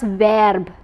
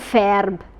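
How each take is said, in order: First: The word begins with a voiced v sound. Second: The word begins with a voiceless f sound. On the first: The speaker calls it right. "here we are reading it as das Verb" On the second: The speaker calls it wrong. "not verb"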